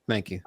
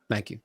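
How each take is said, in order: Both takes have the same delivery.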